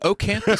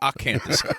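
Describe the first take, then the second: First: The name begins with an 'oh' vowel. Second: The name begins with an 'ah' vowel. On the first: This is how the other person says it. "You say Ocanthus" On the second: This is how the speaker says it. "say Acanthus"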